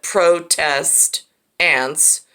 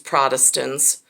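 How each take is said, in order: First: The word is said slowly as two parts. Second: The word is said quickly as one unit.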